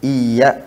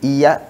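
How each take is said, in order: First: The y sound is held long and doubled. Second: The y sound is short and single. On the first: It means to you, O God. The speaker calls it right. "mesti pakai tasdid" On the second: It means to the sun. The speaker calls it wrong. "tanpa tasdid"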